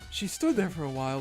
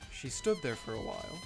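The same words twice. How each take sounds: First: It is read in a put-on character voice. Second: It is read in the speaker's normal voice.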